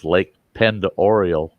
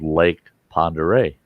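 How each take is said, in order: First: Pend Oriole as "pend oriole"; spelling pronunciation. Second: Pend Oreille as "pond-er-ay"; local pronunciation. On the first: Showing how the spelling misleads, PEND OR-ee-ole Pend Oriole. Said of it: "the way it's spelled". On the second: Naming the lake as locals do, "pond-er-ay" Pend Oreille. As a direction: say Pend Oreille the French way, PON-duh-RAY. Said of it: "say it the way it's spelled". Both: Shown as a demonstration.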